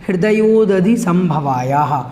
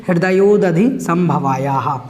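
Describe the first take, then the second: Both takes have the same delivery.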